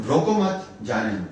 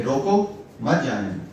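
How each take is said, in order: First: روکو مت together, then جانے دو apart; pause after مت. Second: روکو set apart, then مت جانے دو together; pause after روکو. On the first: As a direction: run روکو مت as one phrase, break before جانے دو. (روکو مت کے بعد وقفہ، پھر جانے دو) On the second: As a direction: break after روکو, run مت جانے دو as one phrase. (روکو کے بعد وقفہ، پھر مت جانے دو) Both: Shown as a demonstration. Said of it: "اگر آپ اس کو ڈفرینٹلی".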